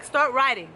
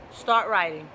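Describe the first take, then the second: First: "Start writing." pushed out louder; loud, insistent coaching command; firm command. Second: Low, firm "Start writing."; low, insistent coaching command. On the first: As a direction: press hard on "Start". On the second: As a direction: hit the start of "Start writing." hard. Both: Shown as a demonstration.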